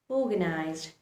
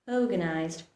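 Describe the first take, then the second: No difference in how they are said.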